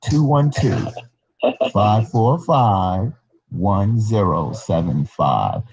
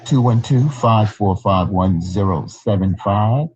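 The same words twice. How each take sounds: First: The number is read at a slower pace. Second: The number is read at a quicker pace.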